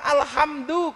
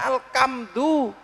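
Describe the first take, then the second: First: The middle consonant is a soft h. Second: The middle consonant is a hard k.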